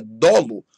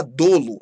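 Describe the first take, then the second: First: DOLO lower and louder, with open ó; timbre aberto. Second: DOLO with closed ô; timbre fechado, errado. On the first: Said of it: "é dolo". (dolo com ó aberto) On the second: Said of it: "não é falar". (dolo com ô fechado) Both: Shown as a demonstration.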